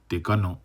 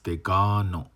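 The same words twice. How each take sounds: First: The vowels are short, not held. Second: A vowel is held long. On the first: The speaker calls it wrong. "it's not degano" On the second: The speaker calls it right. "You have these lengthens in here now"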